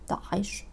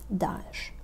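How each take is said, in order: First: A throaty Ain sound is heard in the middle. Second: No throaty Ain sound is heard in the middle. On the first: This is closest to the original Arabic. "taką najbliższą oryginałowi" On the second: This is a simplified, easier form. "taka bardzo uproszczona wersja"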